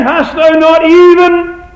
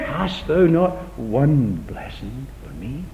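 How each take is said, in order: First: High, loud, slow anguished cry; louder, higher begging than the take before; anguished Esau plea. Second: Pleading Esau. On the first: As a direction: cry it out as a son begging his father. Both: Acted. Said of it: "Read it again".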